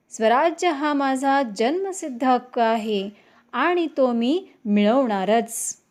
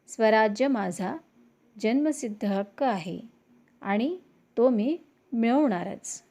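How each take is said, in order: First: It is read forcefully, with strong expression. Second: It is read plainly, without expression.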